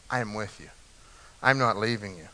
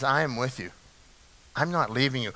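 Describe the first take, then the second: First: Much softer and lower, almost breathed, letting it sink in; near-hushed repeat. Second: Softer and lower, quietly assuring; soft, tender promise. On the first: Real, not acted. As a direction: repeat it even more gently, close to the ear. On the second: Acted. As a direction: say it like a gentle promise to someone afraid. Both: God's promise quoted, then echoed.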